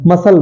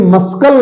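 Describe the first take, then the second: First: "मसल" said ma-sal, no k sound; silent C. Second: "मस्कल" with a hard k after the s; wrong pronunciation. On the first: Teacher giving the correct word muscle, silent C. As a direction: drop the k in "मसल" entirely. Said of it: "C silent है". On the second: Teacher showing learners what not to say, wrong pronunciation. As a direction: sound the silent c in "मस्कल" as k. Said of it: "इसे मस्कल नहीं बोलते". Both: Shown as a demonstration.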